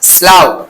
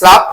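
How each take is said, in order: First: The word ends with an 'ow' vowel sound. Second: The word ends with a short 'uff' sound. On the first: It means a swamp or marshy low ground. "স্লাউয়ের অর্থ হচ্ছে বিল, জলাভূমি বা নিম্নাঞ্চল" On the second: It means the cast-off skin of a snake. "Pronunciation different হবে, সেটা হচ্ছে স্লাভ"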